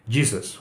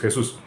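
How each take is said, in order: First: The name is pronounced with English sounds. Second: The name is pronounced with Spanish sounds. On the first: This is how people in the United States say the name. "pero para ellos es J C o Jesus" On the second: This is how Spanish speakers say the name. "Para nosotros sí, porque estamos acostumbrados a decir Jesús"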